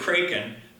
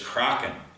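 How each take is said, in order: First: Kraken is said with an English-style pronunciation. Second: Kraken is said with the Norwegian pronunciation. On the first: The speaker calls it wrong. "I used to say kraken" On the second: The speaker calls it right. "the correct pronunciation is kraken"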